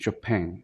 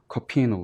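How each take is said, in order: First: The name is pronounced in a French way. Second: The name is pronounced in a Polish way. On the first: "It's very French" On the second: "it should be like Copino"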